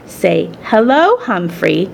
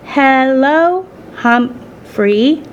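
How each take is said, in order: First: Gentle, slow prompt; gently instructing. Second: High, drawn-out, careful greeting; halting learner's attempt. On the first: Acted. Daughter instructing her mother in English, gentle and slow. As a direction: show her kindly how to say it. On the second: Mother practising English on the hamster, slow and halting. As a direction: sound out each syllable tentatively. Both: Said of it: "Saya gently instructed her mother".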